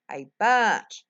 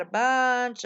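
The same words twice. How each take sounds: First: Bunch punched out louder; stress on bunch. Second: Said in the usual way. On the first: Real, not acted. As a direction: hit the word bunch hard. Repeats for emphasis.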